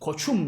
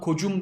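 First: The middle consonant is a ch sound. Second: The middle consonant is a j sound. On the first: The speaker calls it right. "bak yumuşama olmamış" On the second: The speaker calls it wrong. "kocum demiyorum"

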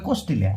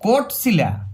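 First: The s sound comes before the t sound. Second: The t sound comes before the s sound. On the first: "ওরা বলে কোস্টিলা, উল্টা বলে" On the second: "টটা আগে"

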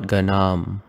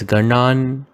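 First: The word ends with an m sound. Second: The word ends with an n sound. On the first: The speaker calls it wrong. "not Ganam. It's an N" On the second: The speaker calls it right. "make it as Ganan"

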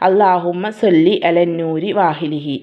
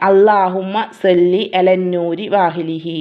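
Both takes have the same delivery.

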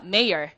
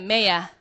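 First: American accent, ending with an r sound. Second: British accent, ending without an r sound. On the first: "이걸 우리가 미국식으로 발음하면" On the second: "영국식 발음으로 R 발음을 안 합니다"

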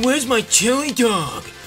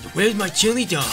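First: The voice is strongly whiny. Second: The voice is only mildly whiny. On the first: The speaker calls it right. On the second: The speaker calls it wrong.

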